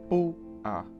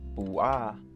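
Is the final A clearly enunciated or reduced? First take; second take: reduced; enunciated. First: The force is at the start, A reduced. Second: The final A is fully enunciated. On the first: The speaker calls it right. "It's bua, bua. Just bring in that force at the beginning" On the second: The speaker calls it wrong. "make sure not to enunciate the A, because it's not bua"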